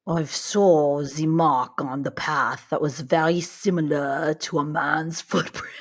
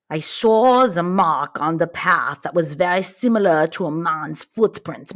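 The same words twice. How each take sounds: First: Bad Russian accent. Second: Put-on Russian accent. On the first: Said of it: "This is the worst Russian accent ever". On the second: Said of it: "like my Russian accent did".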